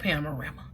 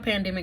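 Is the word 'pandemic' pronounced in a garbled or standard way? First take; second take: garbled; standard. First: The word is deliberately garbled into different sounds. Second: The word is pronounced in the ordinary standard way. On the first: The speaker calls it wrong. "I'm saying it wrong on purpose" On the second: The speaker calls it right. "but seriously"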